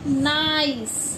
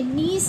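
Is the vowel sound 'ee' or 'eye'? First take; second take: eye; ee. First: The vowel is an 'eye' sound. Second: The vowel is a long 'ee' sound. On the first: The speaker calls it right. "आई की आवाज" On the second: The speaker calls it wrong. "नीस नहीं पढ़ेंगे ना"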